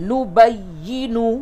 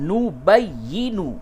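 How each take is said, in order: The two takes are said the same way.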